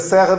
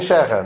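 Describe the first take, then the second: First: It starts with an s sound. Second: It starts with an sh sound.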